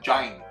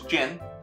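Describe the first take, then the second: First: The vowel is a long 'eye' sound. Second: The vowel is a short 'i' sound. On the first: The speaker calls it wrong. "you said Jine" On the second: The speaker calls it right. "that was close"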